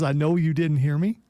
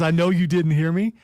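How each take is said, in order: First: It is said at a quieter volume. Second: It is said at a louder volume.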